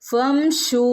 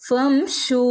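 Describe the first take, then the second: Both takes have the same delivery.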